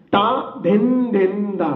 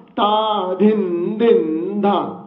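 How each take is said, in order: First: Slow, even syllables ता धिन धिन धा; slow recitation. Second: ता धिन धिन धा very slow, each bol drawn out; even slower. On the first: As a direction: spell out ता धिन धिन धा slowly, one bol at a time. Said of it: "अभी आखिर की चार मात्रा है". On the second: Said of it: "मैं और भी धीरे बोलता हूं". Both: Shown as a demonstration.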